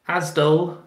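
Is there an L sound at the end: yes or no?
yes. It ends with an added L, Bristol style.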